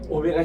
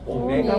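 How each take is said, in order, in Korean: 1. 가운데 음절에는 특별한 강세가 없어요. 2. 강세는 가운데 음절에 있어요. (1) "이러지 마시고" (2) "메에 액센트가 있어요"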